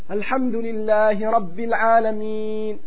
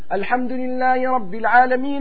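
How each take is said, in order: First: It is unhurried, with a pause after it. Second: It is rushed straight into the next verse. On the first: Each verse is one side of a dialogue. The speaker calls it right. "Denk an diesen Hadith, dass es ein Dialog stattfindet" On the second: The verses are run together without reflection. The speaker calls it wrong. "mach nicht so: ... alles zusammen"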